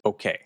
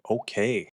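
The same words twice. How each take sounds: First: Said in the usual way. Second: Mildly giddy okay, a little drawn out. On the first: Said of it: "she says". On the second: Retold or imitated. Charlie getting his yes from Kathy, giddy. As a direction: imitate someone pleased to get a yes. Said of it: "he's giddy".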